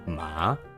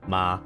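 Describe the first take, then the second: First: The pitch goes down and then up. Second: The pitch stays flat and level. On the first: "you're going down and up" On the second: "If it's a flat line, you say flat"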